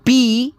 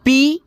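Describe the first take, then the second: First: पी said with a drawn-out long ii; long ii syllable. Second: पी said with a short clipped i; short i syllable. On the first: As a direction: stretch the vowel of पी long. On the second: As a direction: cut the vowel of पी quick and short. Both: Shown as a demonstration. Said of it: "पी, पी (short then long vowel)".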